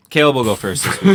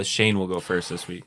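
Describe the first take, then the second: First: Caleb punched higher and louder; loud override, hitting Caleb hard; stress on Caleb. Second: Said in the usual way. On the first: Real, not acted. Host swaps who goes first, stress on Caleb. Repeats it with other name.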